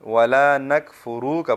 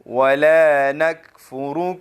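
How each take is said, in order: First: The final k is jerked with an added vowel. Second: The final k is soft and clipped, no jerk. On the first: The speaker calls it wrong. "अक्सर लोग किस तरह पढ़ते हैं?" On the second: The speaker calls it right. "इस तरह पढ़ेंगे।"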